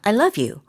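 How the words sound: The words flow together with rhythmic stress. The speaker calls it right. "이런 식으로 리듬이 생기도록"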